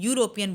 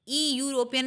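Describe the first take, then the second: First: The word begins with a "yoo" sound. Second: The word begins with an "ee" vowel sound. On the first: The speaker calls it right. "यूरोपियन बोलते हैं" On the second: The speaker calls it wrong. "ई यूरोपियन नहीं बोलते हैं"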